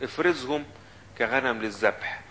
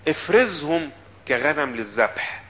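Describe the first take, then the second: First: Softer, the verse read back calmly; softer reread. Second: Slow, deliberate, every word weighed; slow pleading quote. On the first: Preacher rereading the verse to the congregation, softer. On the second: Preacher voicing Jeremiah asking God, slow and deliberate. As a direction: drag out the prophet's plea to God. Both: Acted.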